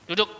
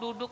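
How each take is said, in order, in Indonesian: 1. Kata itu diucapkan tegas seperti perintah. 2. Kata itu diucapkan lemah, tidak seperti perintah. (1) "Kalau kita mau tegas" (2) "Lah ini nggak perintah"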